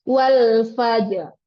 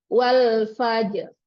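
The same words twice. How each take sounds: The two takes are said the same way.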